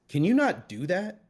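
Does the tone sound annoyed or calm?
annoyed. It is said in an annoyed, raised voice.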